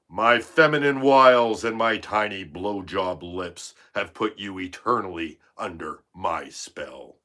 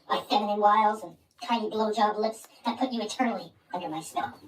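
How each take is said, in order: First: It is read in the speaker's natural voice. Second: It is read in a put-on character voice.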